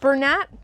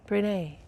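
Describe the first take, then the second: First: The name ends with a clear t sound. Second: The name ends on an open vowel. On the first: "That's how you pronounce that" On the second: "it should be a little bit more elegant"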